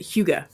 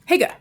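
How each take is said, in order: First: The first vowel sounds like 'hoo'. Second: The first vowel sounds like 'hee'. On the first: The speaker calls it right. "You pronounce it Huga" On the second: The speaker calls it wrong. "which I say, right, Higa"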